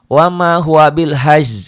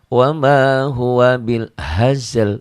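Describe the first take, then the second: First: Only one final consonant of the last word is pronounced. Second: Both final consonants of the last word are pronounced. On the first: The speaker calls it wrong. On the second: The speaker calls it right.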